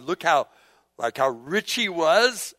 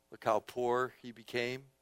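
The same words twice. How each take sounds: First: "how rich he was" drawn out and rising; wondering, emphatic "how rich he was"; marvelling emphasis. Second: Low, soft "how poor he became"; quiet, subdued marvelling; hushed wonder. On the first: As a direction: stretch "rich he was" slowly, voice lifting at the end. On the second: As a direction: drop the voice humbly on "poor he became". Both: Real, not acted. Contrasts rich Word with poor.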